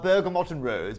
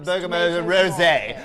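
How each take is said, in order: First: The final t of Bergamot is sounded. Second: The final t of Bergamot is silent.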